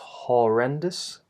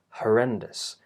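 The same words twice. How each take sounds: First: The first vowel is a full, open O. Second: The first vowel is a short, weak schwa. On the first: The speaker calls it wrong. "It's not horrendous" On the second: The speaker calls it right. "which is the schwa vowel"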